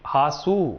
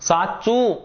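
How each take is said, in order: First: The word begins with an h sound. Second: The word begins with an s sound. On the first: It is the Saurashtra dialect form. "કે હાસુ કે છે" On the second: It is the standard Gujarati form. "સાચું તો"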